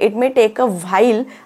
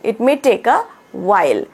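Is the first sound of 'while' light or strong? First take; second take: strong; light. First: 'While' starts with a strong, stressed 'vh' sound. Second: 'While' starts with a short, light 'w' sound. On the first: "बरोबर आहे it may take a व्हाईल असंच आहे" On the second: "व्ह वर असं ना focus नाही करायचा stress नाही द्यायचा आहे"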